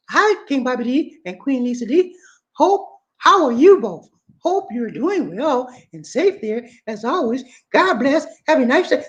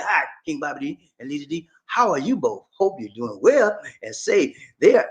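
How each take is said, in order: First: Lady's voice. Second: Wrong voice. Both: Shown as a demonstration. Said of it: "I'm sorry, wrong voice".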